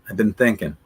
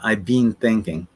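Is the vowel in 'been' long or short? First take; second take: short; long. First: Been has a short vowel, unlike bean. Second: Been has a long vowel, like bean. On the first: The speaker calls it right. "Mario and Christina say, been" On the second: The speaker calls it wrong. "Not I've been thinking. What, are you thinking about thinking about beans?"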